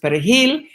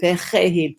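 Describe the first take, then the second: First: It is said with a Spanish r. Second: It is said with a French r.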